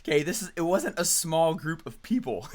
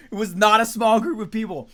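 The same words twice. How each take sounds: First: Said in the usual way. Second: Not small punched out, much louder and higher; stress on not. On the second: Shown as a demonstration. Correcting the crowd size to the class with a loud stressed not. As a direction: hit "not" hard, loud and high.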